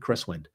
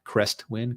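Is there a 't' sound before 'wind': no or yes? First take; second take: no; yes. First: No 't' sound comes before 'wind'. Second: A 't' sound comes before 'wind'. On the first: The speaker calls it right. "Cresswind, not Crestwind" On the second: The speaker calls it wrong. "not Crestwind"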